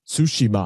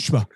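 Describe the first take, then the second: First: Each syllable is said separately and distinctly. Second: The syllables are run smoothly together. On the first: The speaker calls it wrong. "it's not Tsushima" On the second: The speaker calls it right. "They run it all together"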